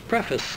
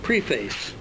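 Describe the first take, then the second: First: It is said with a short 'pref' sound. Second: It is said like 'pre' plus 'face'. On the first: The speaker calls it right. "that's preface" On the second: The speaker calls it wrong. "as in before face"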